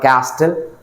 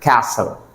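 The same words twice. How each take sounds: First: The t sound is pronounced in the middle. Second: The t sound is left silent in the middle. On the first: The speaker calls it wrong. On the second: The speaker calls it right.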